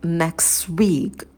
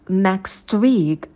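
First: The 't' sound in 'next' is dropped. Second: The 't' sound in 'next' is pronounced.

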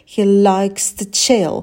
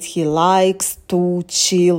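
First: Only chill is stressed; to is quick and weak. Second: Every word is stressed evenly, including to. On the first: The speaker calls it right. "И вот прыгнули на слове chill. Это у нас ударное слово, а to не ударное" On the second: The speaker calls it wrong. "не нужно говорить he likes to chill, да, прям вот каждое слово выделять"

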